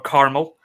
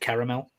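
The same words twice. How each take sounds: First: It is said in an imitated American accent. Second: It is said in the speaker's natural accent.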